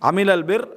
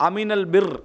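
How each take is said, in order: The two takes are said the same way.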